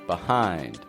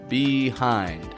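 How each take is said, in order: First: The first vowel is a weak, short sound. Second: The first vowel is a full, long sound. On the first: The speaker calls it right. "but B" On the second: The speaker calls it wrong. "I don't say it like"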